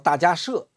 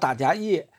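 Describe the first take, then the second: First: The last syllable is pronounced 'she'. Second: The last syllable is pronounced 'ye'. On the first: The speaker calls it right. "他正确的发音叫大迦摄" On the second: The speaker calls it wrong. "不叫大迦叶"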